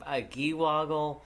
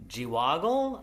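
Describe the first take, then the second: First: "Giwoggle" said with a hard G, ghee-WOG-gle; hard-G pronunciation. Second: "Giwoggle" said with a soft G, jee-WOG-gle; soft-G pronunciation. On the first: Host retrying an unfamiliar creature name, "Giwoggle" as ghee-WOG-gle. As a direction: start "Giwoggle" like "geese". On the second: Host trying an unfamiliar creature name, "Giwoggle" as jee-WOG-gle. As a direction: start "Giwoggle" with a J sound. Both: Real, not acted. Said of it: "probably not pronouncing this correctly".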